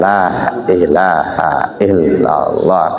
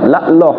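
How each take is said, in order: First: The phrase is said fully, with every sound clear. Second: The phrase is shortened, with sounds dropped. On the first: The speaker calls it right. "Harusnya kan la ilaha illallah. Kan jelas tartil" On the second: The speaker calls it wrong. "kan sudah berkurang hurufnya itu"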